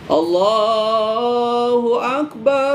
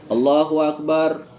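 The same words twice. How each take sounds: First: The phrase is long, drawn out and melodic. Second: The phrase is short, without long held vowels. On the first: It sounds like the call to prayer. The speaker calls it wrong. "kalau bisa nadanya jangan nada seperti azan" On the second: It sounds like the call to stand for prayer. The speaker calls it right. "kalau qomat biasanya dia lebih pendek ya"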